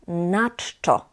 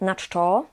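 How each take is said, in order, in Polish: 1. Akcent pada na słowo na. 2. Akcent pada na słowo czczo. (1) "akcent jest na a"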